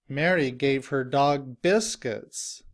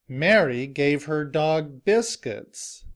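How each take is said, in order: Both takes have the same delivery.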